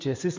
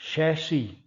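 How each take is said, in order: First: The word ends with a 'sis' sound. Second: The word ends with a 'shee' sound. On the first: The speaker calls it wrong. "आमतौर पर लोग चेसिस बोलते हैं" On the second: The speaker calls it right. "ये शब्द होता है शैशी"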